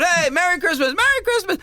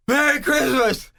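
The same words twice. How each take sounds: First: High, singsong holiday hail; cheery greeting. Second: Slow, breathless greeting after a heavy breath; winded slogging. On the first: Walker calling to the crowd along the parade, cheery. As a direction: greet the crowd brightly, pitched way up. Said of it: "I know the way I was talking". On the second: Walker slogging up the first hill, acting exhausted. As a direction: puff it out as if worn out by a climb. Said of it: "I'm slogging up there". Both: Acted.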